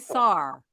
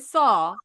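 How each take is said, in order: First: It ends with a New York r-sound. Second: It ends without an r-sound.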